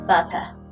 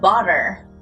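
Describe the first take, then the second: First: The final r is dropped and not pronounced. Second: The final r is strongly pronounced and rolled. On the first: "영국식은 어떻게 하죠? ... R 발음을 아예 발음하지 않기도 해요" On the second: "미국식 영어 발음에서는요. 마지막을 엄청 굴려주거든요"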